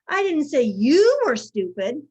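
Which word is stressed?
you. The stress falls on the word you. Someone else was the stupid one. "I said so and so was stupid"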